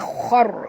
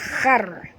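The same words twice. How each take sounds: First: The syllable is said thick and heavy. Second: The syllable is said thin and light. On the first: The speaker calls it right. "Jadi bacaan dia khar" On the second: The speaker calls it wrong. "bukan khar. Kalau baca khar tak betul"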